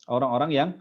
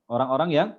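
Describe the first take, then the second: The two takes are said the same way.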